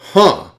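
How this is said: It sounds dismissive and unconvinced.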